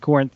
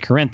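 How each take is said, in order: First: The name is pronounced the Greek way. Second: The name is pronounced the local Texas way. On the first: This is how the city in Greece is named. "but it's Corinth in Greece" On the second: This is how the town in Texas is named. "I believe it's pronounced Corinth in Texas"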